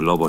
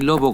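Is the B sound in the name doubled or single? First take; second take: single; doubled. First: The B sound is single and short. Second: The B sound is doubled and held longer. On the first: "sin más" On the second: "con doble B"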